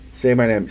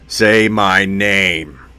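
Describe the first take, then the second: First: It is said in his normal voice. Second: It is said as a Heisenberg impression.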